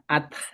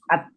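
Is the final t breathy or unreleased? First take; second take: breathy; unreleased. First: The final t ends with an audible breathy release. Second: The final t ends with no breathy release. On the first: The speaker calls it right. "ada ada pecahnya" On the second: The speaker calls it wrong. "bukan at"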